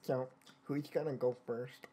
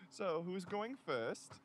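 First: Low, quiet put-on nerd voice; geeky, unsexy voice. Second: Slow, lightly geeky delivery; lightly put-on unsexy nerd voice. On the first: Shown as a demonstration. Redoing the nurse's question, geeky unsexy voice. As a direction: do a deliberately unsexy geek. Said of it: "let me do it in a geeky". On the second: Nurse asks who goes first, mildly geeky voice. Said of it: "I said in a geeky, unsexy voice".

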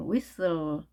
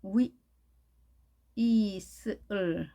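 First: Said in the usual way. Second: "위, 이슬" slowly, sound by sound. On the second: Shown as a demonstration. Teacher breaks down a word for learners, sounded out "위, 이슬". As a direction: stretch "위, 이슬" apart into separate sounds. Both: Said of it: "스펠링이".

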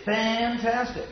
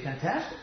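First: "fantastic" drawn out slow and high; stress on fantastic. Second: "fantastic" short, ending on a rise; other stress on fantastic. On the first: Lecturer demonstrating accent to students, slow high emphasis. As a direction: stretch "fantastic" out slowly on a high note. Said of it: "you can say". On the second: Lecturer contrasting a second accent for students, quick rising tone. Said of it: "or you can say". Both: Shown as a demonstration.

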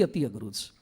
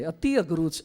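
First: અતિ અઘરું છે dropped much softer and lower; hushed emphasis. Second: Said in the usual way. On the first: Shown as a demonstration. Preacher stressing to listeners how hard it is, much softer. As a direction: let અતિ અઘરું છે fall away softly for weight. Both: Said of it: "અતિ, અતિ".

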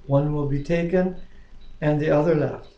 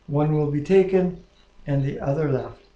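The two takes are said the same way.

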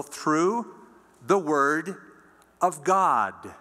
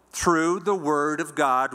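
First: Through, the, word spaced out with pauses, each word lifted; emphasized phrase. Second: "Through the word of God" slowed as one phrase, leaning on "the"; slow, weighty read of "Through the word of God"; emphasized phrase. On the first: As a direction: lay "through the word of God" down word by word with gaps. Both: Shown as a demonstration. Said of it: "I'm emphasizing that".

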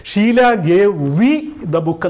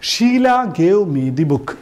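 First: Slow wrong example. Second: Very slow, word by word, reading the correct example; slow dictation. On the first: Teacher shows students the incorrect sentence, slow and marked. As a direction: spell out the wrong version deliberately. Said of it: "എന്നല്ല പറഞ്ഞത്". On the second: Teacher reads the correct sentence slowly to the class. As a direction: read the right sentence out slowly. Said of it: "ഇവിടെ gave എന്ന് പറയുന്നത്". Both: Shown as a demonstration.

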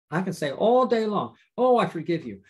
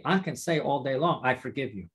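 First: "all" lifted higher, then "Oh" punched before "I forgive you"; emphatic empty forgiveness. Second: Said in the usual way. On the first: Shown as a demonstration. Preacher showing words not from the heart, stressing "all" and "Oh". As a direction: make a show of it, leaning on "all" and "Oh".

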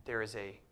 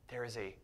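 The two takes are said the same way.

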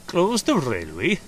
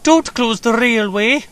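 First: Slow, amused incredulous question; higher, drawn-out question, gently dismissing the worry; assuring. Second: Slow, high, loud plea; high-pitched imploring wail; begging. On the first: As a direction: echo it with a reassuring smile. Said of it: "smiled assuringly". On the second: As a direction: plead desperately, pitched way up. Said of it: "begged Peter Sam". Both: A narrator's reading.

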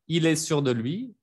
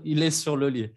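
First: "sûr de lui" with a d and a gliding "lui", rising at the end; contrasting minimal phrases. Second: "sur le lit" with an l and a plain "li", falling at the end; contrasting minimal phrases. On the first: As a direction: model "sûr de lui", ending up on LUI. ("sûr de lui" con d y "lui", final ascendente) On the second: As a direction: model "sur le lit", closing downward on LIT. ("sur le lit" con l, final descendente) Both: Shown as a demonstration. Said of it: "tratan de decirlo eso diez veces seguidos".

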